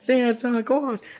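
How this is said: It is said in a put-on character voice.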